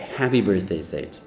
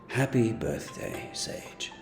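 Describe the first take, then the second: First: It is said in a normal voice. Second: It is said in Silco's voice.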